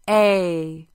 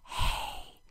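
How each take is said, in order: First: It is said with full voice. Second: It is whispered without voice.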